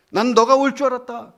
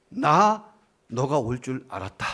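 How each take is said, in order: First: 너가 punched high and loud; louder, much higher, 너가 stressed; emphatic, stress on 너가. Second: 나 leaned on, slow, falling close; 나 너가 올 줄 알았다, stress on 나. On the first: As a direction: belt it out, hitting 너가 hard. Dying friend's quoted words repeated. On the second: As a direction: say it slowly, landing on 나 with a falling close. Dying friend's quoted words. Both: Retold or imitated.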